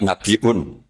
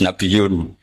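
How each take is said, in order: First: "Nabiun" slowly, glottal catch before un; with hamzah. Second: "Nabiyun" said slowly with gliding y; ya in place of hamzah. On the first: Teacher contrasts Asim's reading, hamzah in Nabiun. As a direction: break "Nabiun" into nabi-'un. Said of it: "nggak Nabiun". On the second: Teacher gives Asim's reading, ya in Nabiyun. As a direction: glide through "Nabiyun" without a catch. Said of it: "Asim, harus Nabiyun". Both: Shown as a demonstration.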